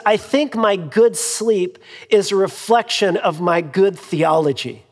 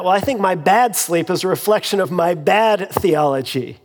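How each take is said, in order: First: Good leaned on both times; the other preacher's confident line, good stressed. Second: Bad stressed with a falling end; wry self-mocking reply, bad stressed. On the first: Retold or imitated. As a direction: lean on the word good each time. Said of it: "he said". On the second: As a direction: land hard on bad both times. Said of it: "And I thought".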